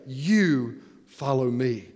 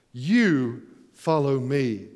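First: YOU stressed, low and slow; emphatic You. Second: "You" hit hard, low and very slow; emphatic You. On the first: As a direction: lean hard on "You", slowly. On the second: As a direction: drag out "You follow me" slowly. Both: Acted. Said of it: "point his finger into his chest".

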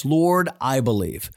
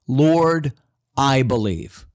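First: Said in the usual way. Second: Loud, firm declaration of belief; emphatic cry. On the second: Retold or imitated. Father crying out to Jesus, loud and emphatic. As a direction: cry it out with conviction. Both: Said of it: "That sounds like an emphatic statement".

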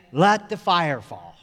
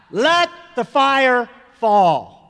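First: Slow, measured ceremonial call; master of ceremonies. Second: Loud, high, drawn-out call; crowd crying out. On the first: Master of ceremonies calling to the camp, slow ceremonial call. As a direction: announce it slowly, letting the last word drop. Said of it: "he would always say". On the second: Huge mass of people joining in at the firefall, crying out. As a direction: cry it out like a huge crowd, every word stretched. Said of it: "huge mass of people would cry out". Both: Retold or imitated.

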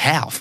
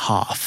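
First: HALF with a flat a as in cat; "half" with an ae vowel; American pronunciation. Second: HALF with a long ah; British broad a in "half"; British pronunciation. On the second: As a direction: say "half" as hahf. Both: Shown as a demonstration. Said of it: "We say half".

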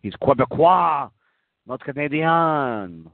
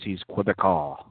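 First: Mock French accent, pitched up; hammed-up French Canadian accent. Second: Said in the usual way. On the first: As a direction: exaggerate "Quebecois" and "Canadian" as French, drawing out the last syllable. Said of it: "does he speak with a French accent".

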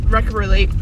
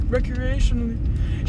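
First: Recreally- cut short, syllables dropped; recreally- said as a garbled, half-finished recreationally; mangled word. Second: Recreationally said in full, slowly, with a laugh; recreationally fixed with a small laugh; corrected word. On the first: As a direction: stumble over recreally- and break off. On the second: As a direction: carefully get recreationally right after being corrected. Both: Real, not acted.

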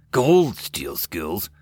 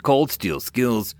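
First: Slow, questioning "Cold steel skills", rising at the end; "Cold steel skills" echoed slowly in puzzlement; puzzled question. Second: Said in the usual way. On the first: A narrator's reading. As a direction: draw out "Cold steel skills" as an unknown phrase. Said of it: "cocked his head to the side with an unfamiliar phrase".

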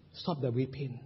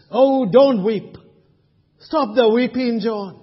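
First: Much softer, lower plea; gentle encouraging elder. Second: Louder, urgent plea to stop crying; encouraging elder. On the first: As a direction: hush "Stop the weeping." tenderly, almost under the breath. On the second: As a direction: call out to John to stop weeping. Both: Pretend. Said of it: "Let me be an encouraging elder".

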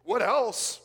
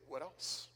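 First: Loud, higher, pressing question; insistent prompt. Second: Soft, understated question; quiet prompt. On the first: Apostle pressing a tearful friend for more, loudly insistent. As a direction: push hard for the rest. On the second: Apostle inviting a tearful friend to continue, quiet prompt. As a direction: draw more out very softly. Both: Acted.

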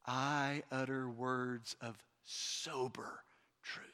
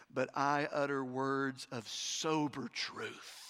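First: Whispered emphasis. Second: Slow sober reply. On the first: Shown as a demonstration. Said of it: "repeated softly as emphasis". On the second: Acted. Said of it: "Paul says".

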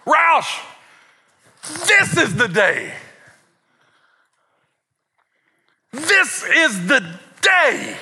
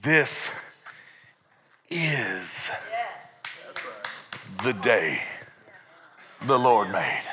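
First: Hammed-up, slow high fervour; amped-up dad. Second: "This", "is", "the day" set apart by long pauses, low; low, deliberate, "is" standing alone; different emphasis. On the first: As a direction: proclaim it like an over-excited preacher dad. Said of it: "boy, all amped up". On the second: Shown as a demonstration. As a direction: say "This is the day" piece by piece, lower and quiet. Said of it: "different emphasis on a different syllable".

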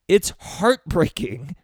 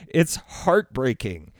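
First: Higher, slow, heartbroken rise; real emotion spilling up, slow; rising heartbreak. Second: Slow, sinking, heartbroken repeat; falling heartbreak. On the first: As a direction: let it break open, slowly and high. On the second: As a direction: let it settle down, slow and sad. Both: Real, not acted. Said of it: "I'm starting to get emotional".

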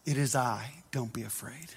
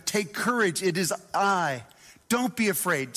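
First: Hushed Jesus voice. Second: Said in the usual way. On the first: Acted. Preacher voicing Jesus to frightened disciples, low and hushed. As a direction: drop low and soft, almost a murmur.

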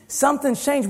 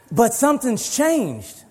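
First: High emphatic. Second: Slow emphatic. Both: Shown as a demonstration.

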